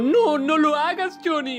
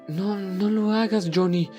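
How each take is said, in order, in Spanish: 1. Se dice de forma agitada e intensa. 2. Se dice de forma tranquila y suave. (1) "tal vez el personaje quería decirlo como" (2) "o tal vez más tranquilo como"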